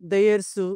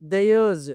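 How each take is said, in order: First: The word ends in a hissing s sound. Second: The word ends in a buzzing z sound. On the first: The speaker calls it wrong. "ఇలా కాదు" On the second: The speaker calls it right. "ఇలా చెప్పాలి"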